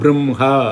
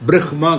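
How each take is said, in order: First: The nasal comes first, then the h. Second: The h comes first, then the nasal. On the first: The speaker calls it right. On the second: The speaker calls it wrong. "பிரஹ்மா கிடையாது"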